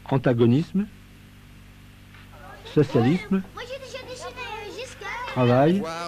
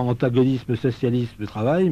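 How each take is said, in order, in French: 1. Une pause sépare chacun des mots. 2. Les mots s'enchaînent sans pause. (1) "ça crée un temps de pause" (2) "non pas"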